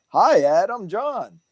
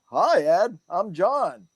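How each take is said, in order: First: Higher, sing-song friendly greeting; thrown voice of John. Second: Spirit's greeting. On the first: Retelling the spirit's hello to his mentor, higher sing-song greeting. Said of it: "the way I threw my voice like that is how he". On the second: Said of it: "the way you just talked and the way I threw my voice". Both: Retold or imitated.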